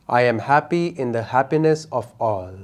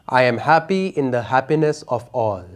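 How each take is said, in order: No difference in how they are said.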